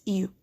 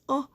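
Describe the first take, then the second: First: "U" said as long "you"; U as "yoo"; long U sound. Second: Short "uh" for the letter U, written "O"; the isolated short vowel "uh"; short U sound. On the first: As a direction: give U its letter-name sound, "you". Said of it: "but it also says". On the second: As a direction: say O as the "uh" in "cup". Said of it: "And the U says". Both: Shown as a demonstration.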